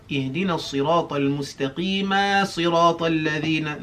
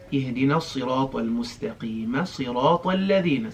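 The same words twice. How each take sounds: First: اهدنا الصراط المستقيم صراط الذين with vowels dragged too long; overstretched. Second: اهدنا الصراط المستقيم صراط الذين said quick, no long vowels; quick, unstretched. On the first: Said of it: "Make sure you don't say". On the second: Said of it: "you don't stretch that too much". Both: Shown as a demonstration.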